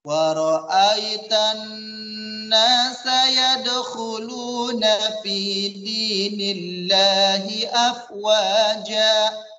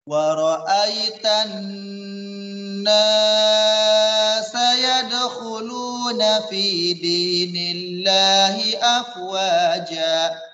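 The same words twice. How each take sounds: First: The 'na' sound is held at normal length. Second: The 'na' sound is stretched out too long. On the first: The speaker calls it right. "Yang betul adalah bacaan yang pertama" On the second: The speaker calls it wrong. "yang kedua naknya terlalu panjang"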